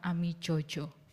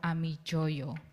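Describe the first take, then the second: First: The last syllable begins with a j sound. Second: The last syllable begins with a y sound. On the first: The speaker calls it wrong. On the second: The speaker calls it right. "it should be pronounced as"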